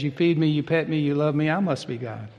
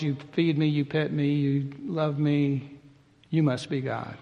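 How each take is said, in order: First: "I must be God" with the weight on "I", falling and chuckling at the end; the cat crowns itself, leaning on "I"; a smug cat, leaning on "I" with a laugh; cat's stress on I. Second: "you must be God" with the weight on "you", falling at the end; the dog points at the master, leaning on "you"; a gently mocking dog, leaning on "you"; dog's stress on you. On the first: Retold or imitated. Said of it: "And the cat says". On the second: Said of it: "where the dog says".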